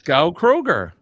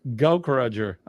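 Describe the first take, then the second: First: The k sound begins the second word. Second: The k sound ends the first word. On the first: The speaker calls it wrong. "I'm going to say Gao Kroger" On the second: The speaker calls it right. "Gauk. Yeah, not Kroger"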